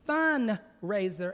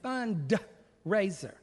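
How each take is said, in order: First: The word is said without the D sound. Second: The word is said with a clear D sound. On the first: The focus is on having fun. The speaker calls it wrong. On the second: The focus is on raising money. The speaker calls it right.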